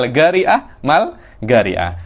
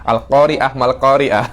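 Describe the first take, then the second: First: The q is said as g, Hadrami style. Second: The q is said as a standard uvular q.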